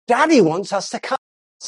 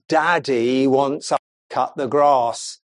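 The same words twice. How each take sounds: First: The voice sounds cheerful and enthusiastic. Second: The voice sounds grudging and complaining. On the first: The husband's plan is welcomed as a good thing. The speaker calls it right. "Isn't that great?" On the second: The husband is blamed for spoiling the plan. The speaker calls it wrong. "And it's all the way you say it"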